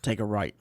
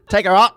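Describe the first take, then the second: First: It is said in an English accent. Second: It is said in a Scottish accent. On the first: "He's like" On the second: "that Scottish, brogue"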